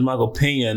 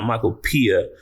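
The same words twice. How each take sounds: First: "Pena" said with the Spanish ñ, pen-ya; "Pena" pronounced pen-ya, the right way; correct name. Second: "Pia" said pee-ah, dropping the n; "Pia" said as pee-ah, the AI's wrong version; wrong name. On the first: Vlogger correcting the AI article's name, plain "Pena". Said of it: "not Michael Pia". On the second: Vlogger mocking the article's misspelling, "Pia" as pee-ah. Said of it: "pretty sure his name is Michael Pena". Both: Shown as a demonstration.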